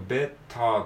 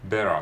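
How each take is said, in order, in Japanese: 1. 真ん中のtははっきりした「t」の音です。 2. 真ん中のtは、素早い「r」のような弾き音です。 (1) "ベターっていうよりか" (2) "アメリカ英語ではベターのt はラ行のラみたいな感じで"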